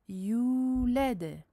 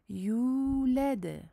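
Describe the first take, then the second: No difference in how they are said.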